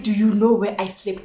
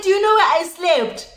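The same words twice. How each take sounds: First: Said in the usual way. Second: High-pitched retold confrontation; mock-outraged question; indignant demand. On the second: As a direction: ask it high, demanding an answer. Retold confronting friend after bad night.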